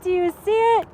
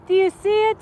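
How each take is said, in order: First: Excited repeat. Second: High, loud and eager; can barely contain the thrill; excited asking. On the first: Pressing the viewers again, high and eager. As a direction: still thrilled, pressing the point. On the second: Asking the viewers to spot it, excited and high. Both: Real, not acted.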